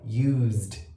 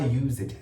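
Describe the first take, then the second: First: The ending is a plain z-d sound. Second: The ending has an added e vowel sound. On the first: The speaker calls it right. "é um som de Z com D" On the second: The speaker calls it wrong. "Muita gente fala used, é muito errado"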